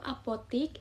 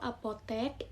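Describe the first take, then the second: First: The last syllable has an i vowel. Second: The last syllable has an e vowel. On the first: This is the non-standard form. The speaker calls it wrong. "Contoh kata tidak baku" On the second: This is the standard form. The speaker calls it right. "Contoh kata baku"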